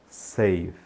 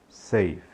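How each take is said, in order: The two takes are said the same way.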